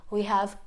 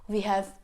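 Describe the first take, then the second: Both takes have the same delivery.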